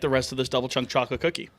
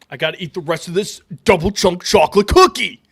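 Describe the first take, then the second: First: It is said in his ordinary own voice. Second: It is said imitating another man's voice.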